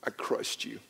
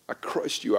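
First: Hushed whisper of remorse; whispered apology, unvoiced; retold whispered confession. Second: Said in the usual way. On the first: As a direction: breathe it out, barely a whisper. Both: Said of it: "I called her name and I said".

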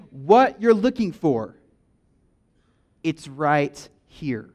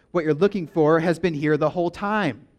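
First: "What you're looking for" dragged out slow and louder, then a long pause; slow emphasis. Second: Said in the usual way. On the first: Acted. Pastor voicing Jesus to the crowd, slow and emphatic. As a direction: land each word slowly, with weight.

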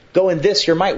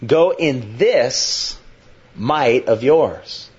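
First: Higher, quicker, pressing on "this" and "your"; emphatic repeat. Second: Drawn out, each word slowly weighed; slow deliberate reading. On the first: Preacher urging the congregation, emphatic. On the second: Preacher slowly reading the command to Gideon. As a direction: read it slowly, letting every word land. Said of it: "Up, go". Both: Shown as a demonstration.

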